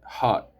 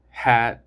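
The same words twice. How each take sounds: First: Hot with an open back ah; open-vowel "hot". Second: Hat with a front a, pitched to carry; loud front-vowel "hat"; open a in hat. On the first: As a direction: say "hot" with the jaw dropped on the vowel. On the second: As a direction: say "hat" loudly with the vowel of cat. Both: Shown as a demonstration. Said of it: "have completely different meanings".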